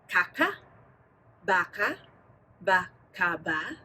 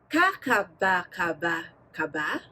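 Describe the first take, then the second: First: The syllables are said slowly. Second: The syllables are said at medium speed.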